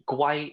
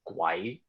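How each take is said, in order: First: It is said with the tone meaning turtle. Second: It is said with the tone meaning ghost. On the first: The word means turtle. "guai is turtle" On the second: The word means ghost. "guai is ghost"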